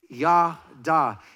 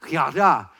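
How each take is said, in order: First: The word is said plainly, without throat friction. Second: The word is said with a raspy, throaty sound. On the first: "Would you say it with me?"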